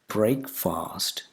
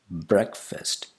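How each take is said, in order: First: The first vowel sounds like 'ay' in break. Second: The first vowel is a short 'e' sound. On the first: The speaker calls it wrong. "It's not breakfast" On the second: The speaker calls it right. "The first vowel sound is not a, it's e"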